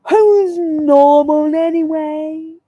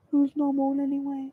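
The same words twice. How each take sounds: First: Loud, drawn-out WHO'S NORMAL ANYWAY; theatrical. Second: Said in the usual way. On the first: Acted. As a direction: stretch "Who's normal anyway" out slowly and dramatically. Theatrical rhetorical question, drawn out.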